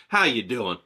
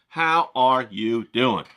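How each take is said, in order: First: Said in the usual way. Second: Slow, stretched how are you doing; drawn-out greeting. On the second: Shown as a demonstration. Repeats greeting slower, louder.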